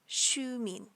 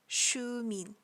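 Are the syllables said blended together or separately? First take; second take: blended; blended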